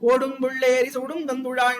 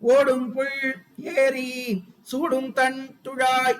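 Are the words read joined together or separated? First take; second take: joined; separated. First: The words are run together as one stretch. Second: The words are read separately, split apart. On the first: "அப்படி படிக்கிறோம் நம்ம" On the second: "அப்படி படிக்காம"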